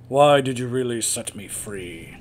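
It is read in an imitated character voice. "try and do the voice from WoW. That's my Liam O'Brien"

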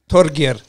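The name is said with a Norwegian accent.

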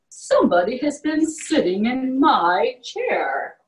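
It is said in a great big voice.

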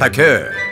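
It is said in a French accent. "as the French would say it"

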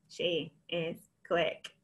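The words are said in a flat robot voice. "Can you robot it?"

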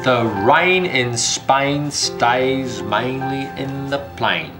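It is said in a rural English country accent. "呢個就係英國鄉下口音"

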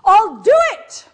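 It sounds angry.

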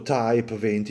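Type is pronounced the English way. "chiamato Type venti in inglese"

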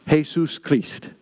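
It is said with a Spanish pronunciation.

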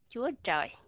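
The second word begins with a tr sound. This is the southern pronunciation. "người miền Nam đọc ra là"

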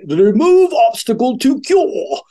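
It is said in a put-on, old-fashioned voice.

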